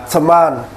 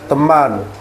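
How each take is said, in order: First: The t is breathy, in an English accent. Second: The t is plain, in an Indonesian accent. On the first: "kita buat dengan nada bahasa Inggris itu seperti teman" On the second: "Kalau kita kan dia nggak glotal"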